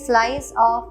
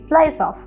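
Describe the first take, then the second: First: The two words are said separately. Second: The two words run together smoothly. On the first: The speaker calls it wrong. "We don't say slice of heaven" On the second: The speaker calls it right. "We say slice off"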